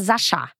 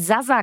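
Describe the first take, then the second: First: The middle consonant is an sh sound. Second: The middle consonant is a plain s sound. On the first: The speaker calls it right. "sondern Sascha" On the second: The speaker calls it wrong. "dass es nicht Sasa Kalajdzic ist"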